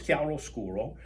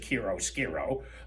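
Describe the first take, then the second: First: The word is said with an Italian accent. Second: The word is said with an American accent. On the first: "in Italy it's chiaroscuro" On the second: "Americans pronounce it chiaroscuro"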